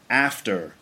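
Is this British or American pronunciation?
American. The first vowel is a short flat 'a' sound. "they'd say after"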